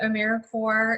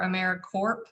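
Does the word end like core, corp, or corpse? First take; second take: core; corp. First: The ending sounds like core, without p or s. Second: The ending sounds like corp, with a p. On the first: The speaker calls it right. "pronounced as if it was like core of the earth or Marine Corps" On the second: The speaker calls it wrong. "or AmeriCorp"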